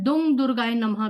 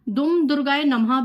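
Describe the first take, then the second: First: The first word ends with an ng sound. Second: The first word ends with an m sound. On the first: "अम और अंग दोनों का आप उच्चारण कर सकते हैं" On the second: "अम और अंग दोनों का आप उच्चारण कर सकते हैं"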